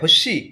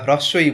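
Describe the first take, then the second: First: The term is clipped into a short slurred form. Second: The term is said in its full careful form. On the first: The speaker calls it wrong. "হস্যি না হ্রস্বই বলছেন" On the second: The speaker calls it right. "এইটা কিন্তু matter করবে।"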